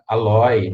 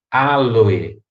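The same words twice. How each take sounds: First: The stress is on the second syllable. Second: The stress is on the first syllable. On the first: The speaker calls it wrong. "a mídia também popularizou de forma errada" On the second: The speaker calls it right. "é proparoxítona... a pronúncia correta é aloe"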